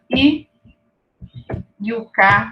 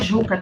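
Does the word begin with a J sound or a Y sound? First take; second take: Y sound; J sound. First: The word begins with a Y-like sound. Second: The word begins with a J sound. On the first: The speaker calls it right. "na pronúncia indígena" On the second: The speaker calls it wrong. "não é Juca"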